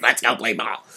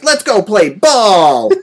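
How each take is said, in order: First: Put-on softer lightly croaky kid voice; lightly voiced Froggy. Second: Put-on slow, higher, louder dubbed kid voice; hammed-up dubbed child line; mock overdubbed little kid. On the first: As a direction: quieter take, like Froggy from Little Rascals. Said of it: "Froggy used to be like".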